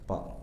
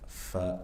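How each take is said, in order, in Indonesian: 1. Diawali bunyi p, tanpa aliran nafas. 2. Diawali bunyi f yang berdesah. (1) "jangan dibaca mirip p ya" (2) "fa dibaca dengan hams, ada aliran nafas"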